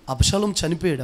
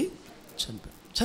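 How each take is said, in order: First: Said in the usual way. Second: చనిపోయాడు whispered very slowly and softly, no voice; hushed whisper. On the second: Shown as a demonstration. Pastor answering his own question about Absalom's death, slow whisper. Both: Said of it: "అబ్షాలోము ఏమేమిటి చెప్పండి".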